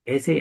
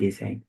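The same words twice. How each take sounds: First: "Essay" said with stress on the first syllable, ES-say. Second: "essay" said with stress on the second syllable, es-SAY. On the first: Teacher showing the first way to say essay. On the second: Teacher showing the second way to say essay. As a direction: say "essay" as es-SAY, a little softer. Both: Shown as a demonstration. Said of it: "You can pronounce this word by two ways".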